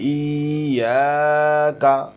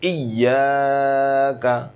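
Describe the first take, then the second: First: The vowel before the doubled consonant is drawn out. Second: The vowel before the doubled consonant is kept short. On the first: The speaker calls it wrong. "অনেকে দেখেন বলে ইয়াকা, ভুল হয় এগুলো।" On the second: The speaker calls it right. "উচ্চারণটা এরকম হবে।"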